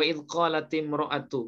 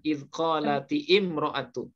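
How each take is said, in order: First: The hamzah is dropped, linking qalati into mra'atu. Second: The hamzah before imra'atu is pronounced separately. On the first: The speaker calls it right. "hamzahnya hamzah wasol ya" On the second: The speaker calls it wrong.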